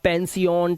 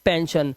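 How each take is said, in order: First: The ending is said as two syllables, 'see-on'. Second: The ending is said as one syllable, 'shun'. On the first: The speaker calls it wrong. "इस तरह से अब आप नहीं पढ़ोगे" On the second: The speaker calls it right. "शन तो अटेंशन, क्रिएशन, मेंशन, टेंशन और पेंशन"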